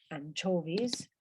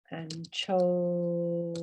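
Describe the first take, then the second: First: Said in the usual way. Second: ANCHOVIES drawn out syllable by syllable; ANCHOVIES, long held middle syllable; slow pronunciation demo. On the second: Shown as a demonstration. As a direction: stretch out ANCHOVIES very slowly for learners.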